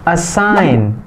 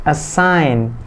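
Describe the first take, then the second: Both takes have the same delivery.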